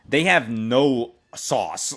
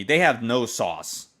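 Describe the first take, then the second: First: "they have no sauce" slow, stress on "have"; scathing critique. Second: "they have no sauce" slow, "have" stressed; scathing critique. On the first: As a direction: drag out "have no sauce" slowly. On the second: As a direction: repeat "have no sauce" slowly, falling. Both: Real, not acted. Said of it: "Literally, they have no sauce".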